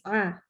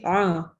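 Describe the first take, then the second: First: The ain sound is light and thin. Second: The ain sound is heavy and thick. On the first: The speaker calls it right. "Tapi tipis" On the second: The speaker calls it wrong. "nggak boleh membaca huruf ain itu dengan tebal"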